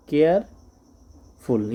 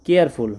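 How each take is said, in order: First: Careful stretched very slowly; drawn out. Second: Said in the usual way. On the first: Shown as a demonstration. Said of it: "stretched take". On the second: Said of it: "careful repeated slowly".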